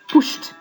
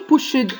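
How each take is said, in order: First: The ending is a t sound. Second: The ending is not a t sound. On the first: The speaker calls it right. "It's brushed, laughed, pushed. Okay? T sound" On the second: The speaker calls it wrong. "So here I don't say pushed"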